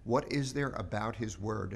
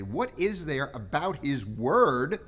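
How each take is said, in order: First: Said in the usual way. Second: "word" lifted, slow and louder; emphatic question. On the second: Shown as a demonstration. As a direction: lean hard on "word" with a rising end. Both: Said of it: "you notice the question in there?".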